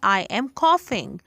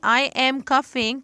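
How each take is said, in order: First: The first vowel sounds like the vowel in 'off'. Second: The first vowel sounds like the vowel in 'cup'. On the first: The speaker calls it right. "ये होता है I am कॉफिंग" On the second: The speaker calls it wrong. "तो आप बिल्कुल गलत कह रहे हैं"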